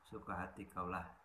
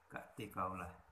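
First: The phrase is said in its full form. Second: The phrase is said in a shortened form.

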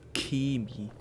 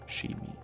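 First: The word begins with a hard k sound. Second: The word begins with a soft hissing sound. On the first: The speaker calls it right. "Das heißt Chemie. K. CH wird in diesem Fall mit K ausgesprochen" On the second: The speaker calls it wrong. "Nicht Chemie oder Chemie"

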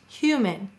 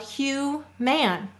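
First: The vowel in the last syllable is weak and unclear. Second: The vowel in the last syllable is a full, clear A. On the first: This is how the word is normally spoken. "Notice the A is unstressed, ... It sounds like an I" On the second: This is a spelling pronunciation that shows which letter is written. "So we would say to spell human"

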